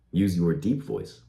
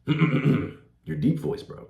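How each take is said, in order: First: Said in the usual way. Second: Put-on deep voice, drawn out very slowly. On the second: Shown as a demonstration. Coach showing viewers how to use a deep voice, deep voice. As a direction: clear the throat, then stretch it out in a deep voice.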